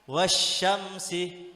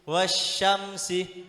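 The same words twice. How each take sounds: The two takes are said the same way.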